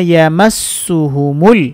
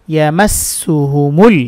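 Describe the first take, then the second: No difference in how they are said.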